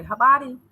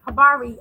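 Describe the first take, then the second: First: "Habari" with a tapped r, almost a d; local Swahili pronunciation. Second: Loud American-accented Swahili. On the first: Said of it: "I would say". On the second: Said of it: "So when I say". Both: Shown as a demonstration.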